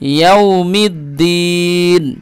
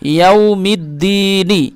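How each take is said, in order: First: The word ends on the n consonant. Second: The word ends with a short i vowel.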